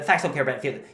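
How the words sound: It is said fast with an American accent. The speaker calls it right. "You just have to say it fast and have a uh, have a little American accent"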